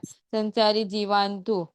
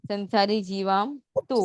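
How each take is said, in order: First: The words are joined with an n sound. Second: The words are said separately with an m sound. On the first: This is how it is recited. "तब आपको न का sound लेना है" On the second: This is how it is read. "संधि छूटी करके पढ़ोगे"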